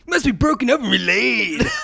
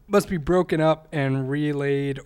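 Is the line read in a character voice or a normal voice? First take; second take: character; normal. First: It is read in a put-on character voice. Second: It is read in a plain, normal voice.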